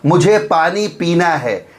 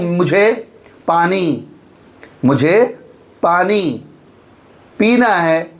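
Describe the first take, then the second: First: It is said smoothly as one phrase. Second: It is broken up with a stop.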